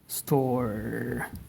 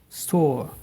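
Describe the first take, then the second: First: An American accent with a strong R sound. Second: A British accent with a long O sound. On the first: "where you have the rolling R" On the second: "if you want that accent, ... store will be store store. So the the O is uh, uh, extended"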